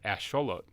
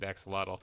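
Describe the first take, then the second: First: It is said with an Aztec-style pronunciation. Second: It is said with an English-style pronunciation. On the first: "The correct way to say it with the Aztec accent" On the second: "if you're saying it with an American or with an English uh, accent"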